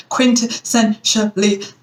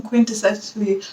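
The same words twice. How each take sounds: First: "quintessentially" said slowly, syllable by syllable, kwin-tuh-SEN-shuh-lee; careful retry. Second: "quintessentially" slurred as kwin-tuh-SEL-ee, middle syllables dropped; fumbled word. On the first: Shown as a demonstration. Correcting herself after fumbling the word, slow and careful. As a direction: carefully spell out "quintessentially" in sound. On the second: Real, not acted. Stumbling over a word while asking listeners, garbled. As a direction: trip over "quintessentially", rushing through it. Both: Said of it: "can't even say the word".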